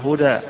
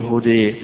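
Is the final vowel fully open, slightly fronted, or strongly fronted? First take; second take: fully open; strongly fronted. First: The final vowel is a fully open 'a'. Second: The final vowel leans strongly toward 'e'. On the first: "اللي يفتحها هدى" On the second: "اللي يميل يقول هدى"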